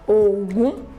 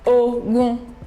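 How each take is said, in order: First: The pitch goes from low to high. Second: The pitch stays mid on both syllables. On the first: "Do, Mi" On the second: "Re, Re"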